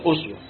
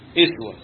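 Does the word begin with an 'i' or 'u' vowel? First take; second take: u; i. First: The word begins with an 'u' vowel. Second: The word begins with an 'i' vowel. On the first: "بضم الهمزة أسوة" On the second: "وبقية القراء يقرأونها بكسر الهمزة"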